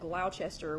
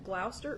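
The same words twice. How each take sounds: First: It is said with the Tennessee pronunciation. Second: It is said with the English local pronunciation. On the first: "here in Tennessee, we pronounce that Gloucester, which I understand is not correct" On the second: "I'm really trying to learn how to say that"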